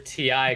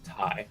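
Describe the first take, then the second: First: It is said as two separate letters. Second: It is said as a single word. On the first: "what we say" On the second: "the company actually pronounces it Ti"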